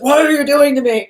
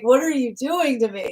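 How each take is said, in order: First: It sounds blaming and accusing. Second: It sounds excited and inspired.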